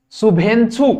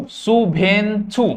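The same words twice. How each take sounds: First: Said in the usual way. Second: शुभेंछु slowly, split into three syllables; slow model pronunciation. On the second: Shown as a demonstration. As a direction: stretch out शुभेंछु for learners to copy. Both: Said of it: "बोलो बार बार मेरे संगे".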